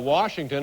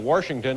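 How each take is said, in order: First: It is said in a standard accent. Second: It is said in an Indiana accent.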